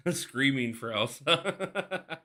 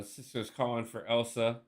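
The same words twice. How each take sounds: First: Laughing and slow through it. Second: Said in the usual way. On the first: Real, not acted. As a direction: stretch it out while laughing. Reading chat requests, laughing.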